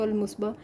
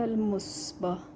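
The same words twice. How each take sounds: First: The name is said fast and run together. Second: The name is said slowly and carefully. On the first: This is how people say it in fast speech. "वो स्पीड में करते हैं तो" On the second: This is the correct pronunciation. "सही प्रोनाउंस"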